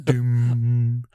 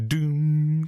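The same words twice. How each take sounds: First: Mock booming voice. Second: "Doom" louder and higher; mock booming voice, second try. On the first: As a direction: boom "Doom" like a film trailer voice. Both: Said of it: "No, I can't do him".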